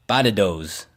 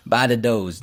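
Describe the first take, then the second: First: "Badadoes" with flapped d's like a Bostonian; "Badadoes" spoken Boston-style with d for t; Boston slang word. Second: "Badadoes" repeated Boston-style, d for t; "Badadoes" drawn out as Boston speak; Boston slang word. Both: Shown as a demonstration. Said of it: "Badadoes means potatoes in Boston speak".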